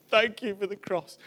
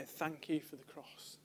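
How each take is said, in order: First: Put-on retelling a man's thanks in a light German accent; a touch of German accent, heartfelt. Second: Said in the usual way. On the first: Telling the church how the German man thanked them, in a light German accent. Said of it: "in the German accent going".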